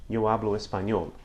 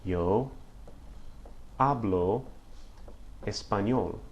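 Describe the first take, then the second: First: Said in the usual way. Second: "Yo hablo español" word by word with long pauses; teacher dictating "Yo hablo español" slowly; slow model sentence. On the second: Shown as a demonstration. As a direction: break "Yo hablo español" into slow chunks for learners. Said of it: "it would be".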